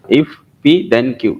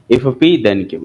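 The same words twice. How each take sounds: First: Very slow, word by word; slow reading aloud. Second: Said in the usual way. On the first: Shown as a demonstration. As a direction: spell out each word of the formula, very slowly. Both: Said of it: "इसको इस तरह से read किया जाता है".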